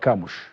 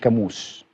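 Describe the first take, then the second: First: The name ends with an sh sound. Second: The name ends with an s sound. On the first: The speaker calls it right. "النطق الصحيح لمهاجم الاهلي المنتظر هو كاموش" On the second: The speaker calls it wrong. "مش كاموس"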